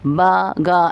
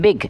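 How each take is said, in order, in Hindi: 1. शब्द को दो अलग-अलग सिलेबल में तोड़ा जाता है। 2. शब्द एक ही सिलेबल में निकलता है। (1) "बा गा ऐसे नहीं हो रहा है" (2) "एक वक्त में आपके मुंह से ये लफ्ज़ निकल रहा है"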